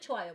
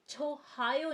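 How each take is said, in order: First: No h sound is heard before the second vowel. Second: An h sound is heard before the second vowel. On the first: The speaker calls it right. "हम लोग इसे छोआयो बोलते हैं" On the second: The speaker calls it wrong. "हम लोग इसे छोहायो नहीं बोलते हैं"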